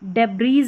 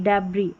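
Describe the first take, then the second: First: The word ends with an s sound. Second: The word ends with no s sound. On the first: The speaker calls it wrong. "डेब्रीज नहीं" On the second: The speaker calls it right. "एस नहीं पढ़ेंगे"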